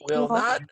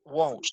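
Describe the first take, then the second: First: It is said as two full, separate words. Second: It is said as one short contracted word. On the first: "here's the full form" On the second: "more typical"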